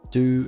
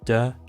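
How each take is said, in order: First: The vowel is a full 'oo' sound. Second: The vowel is reduced to a schwa.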